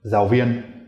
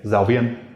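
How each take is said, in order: Both takes have the same delivery.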